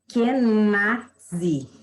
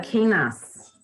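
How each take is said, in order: First: The word ends with a dzi sound. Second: The word ends with a plain s sound. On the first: "segundo ela, né, se pronuncia" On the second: "E eu falava"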